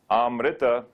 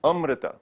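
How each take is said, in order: First: AMRITA opening on a long, open ah; long initial a. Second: AMRITA opening on a short uh, raised pitch; short initial a. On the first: Teacher warning students off the wrong word, long initial a. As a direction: stretch the first vowel of AMRITA to aah. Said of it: "a gives a sense of going towards". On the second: Teacher giving students the correct word, short initial a. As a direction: say AMRITA as UM-ri-ta, first vowel short. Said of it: "So don't say". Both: Shown as a demonstration.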